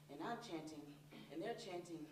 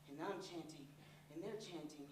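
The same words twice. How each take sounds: The two takes are said the same way.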